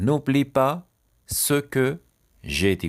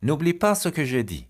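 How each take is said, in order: First: "N'oublie pas", "ce que", "j'ai dit" split by pauses; higher, louder opening chunks, dropping on "j'ai dit". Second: Said in the usual way. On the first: Shown as a demonstration. Teacher dictating a sentence to learners, chunk by chunk.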